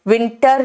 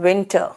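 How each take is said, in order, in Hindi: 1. अंतिम R ज़ोर से बोला जाता है। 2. अंतिम R नरम है और मुश्किल से सुनाई देता है। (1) "विंटर नहीं" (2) "आर पर जोर नहीं देता है"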